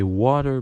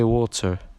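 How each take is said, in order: First: It is said with an American accent. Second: It is said with a British accent.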